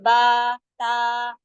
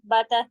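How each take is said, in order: First: The letter names are long and drawn out. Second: The letter names are short and rushed. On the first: The speaker calls it right. "इतने बड़े बड़े होते हैं" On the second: The speaker calls it wrong. "ऐसे जल्दी नहीं होता"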